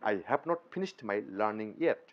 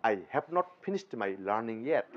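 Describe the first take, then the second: No difference in how they are said.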